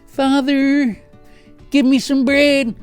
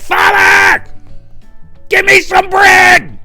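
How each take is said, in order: First: The request sounds timid and polite. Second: The request sounds bold and demanding.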